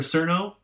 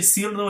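First: The first vowel sounds like 'er' in sir. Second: The first vowel sounds like 'ee' in seal. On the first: The speaker calls it wrong. "instead of Srna" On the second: The speaker calls it right. "the first syllable is actually more Sirno. So imagine like you're saying the word seal"

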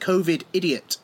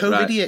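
First: It is said as two separate words. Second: It is said as one blended word. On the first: The speaker calls it wrong. "You kept going, COVID idiot" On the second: The speaker calls it right. "it's COVIDiot"

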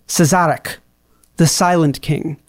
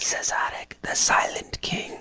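First: It is said at a normal speaking volume. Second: It is said very quietly, almost whispered.

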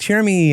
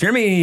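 First: The name is said in a plain, clear voice. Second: The name is said with a throaty, glottal sound. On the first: "there's no confusing it with like Jeremy" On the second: "It's glottal"

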